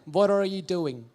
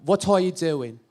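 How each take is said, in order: First: It is said in an American English accent. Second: It is said in an Indian English accent. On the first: "And in American" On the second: "Suppose I'll say, what are, what are you doing? Like that"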